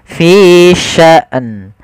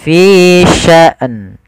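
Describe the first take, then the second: No difference in how they are said.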